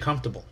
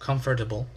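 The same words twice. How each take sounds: First: The word is said without the extra syllable. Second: The word is said with an extra syllable. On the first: "Some people say comfortable" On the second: "I like to add an extra, you know, another syllable"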